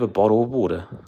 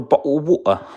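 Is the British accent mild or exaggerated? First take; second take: mild; exaggerated. First: It is said in a mild, everyday accent. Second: It is said in a strongly British accent. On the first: "that's my normal voice there" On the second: "if I want to be more British"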